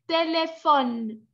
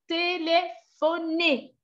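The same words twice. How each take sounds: First: TÉLÉPHONE slow, stopping on the N; silent final E. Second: TÉLÉPHONER slow, syllable by syllable, ending on a clear "ay"; final É sounded. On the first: Teacher showing the word without final accent, silent final E. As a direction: say "téléphone" slowly as té-lé-FON, no vowel after the N. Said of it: "Sinon, vous prononcez". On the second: Teacher showing an accent at word's end, final É sounded. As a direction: draw out "téléphoner" as té-lé-pho-NAY. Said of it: "aigu sur les E à la fin du mot". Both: Shown as a demonstration.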